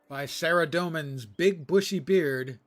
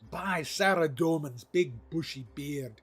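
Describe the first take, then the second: First: It is read in the speaker's ordinary accent. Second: It is read in a put-on Scottish accent.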